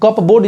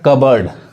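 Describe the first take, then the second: First: The p sound is pronounced. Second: The p sound is silent. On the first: The speaker calls it wrong. "कप बोर्ड जैसे पढ़ेंगे ये गलत हो जाएगा" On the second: The speaker calls it right. "पी silent होता है, पी नहीं पढ़ेगा"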